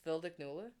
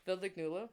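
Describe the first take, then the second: First: "Vilde Knule" said as Norwegian, FIL-de KNU-le; Norwegian phrase. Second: "Vilde Knule" again in Norwegian, rising at the end; Norwegian phrase. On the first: Teaching friends a Norwegian pickup line, sounding out "Vilde Knule". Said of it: "more blunt in Norway". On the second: Imagining a Norway night out, saying "Vilde Knule" in Norwegian. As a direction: say "Vilde Knule" Norwegian-style, lifting the tail. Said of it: "I could have been like". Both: Shown as a demonstration.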